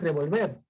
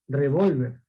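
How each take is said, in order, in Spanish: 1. El acento está en la última sílaba. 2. El acento está en la sílaba del medio. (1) "Y ya no es revolver" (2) "como la tilde está en la O, entonces yo voy a pronunciar revólver"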